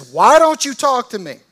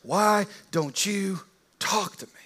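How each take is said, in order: First: Loud, high, exasperated shout of "Why don't you talk to me?"; a governor losing his temper, shouting at a silent prisoner; frustrated outburst. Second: Slower, drawn-out "Why don't you talk to me?" from on high; lordly demand. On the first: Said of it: "He gets frustrated and he says". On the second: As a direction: loom over him and ask. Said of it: "with all this power saying". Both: Retold or imitated.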